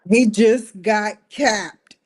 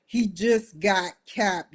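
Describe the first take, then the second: First: Loud, slow news-flash delivery; loud slow announcement. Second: Said in the usual way. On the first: Real, not acted. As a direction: announce it loudly and slowly. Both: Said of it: "repeats announcement".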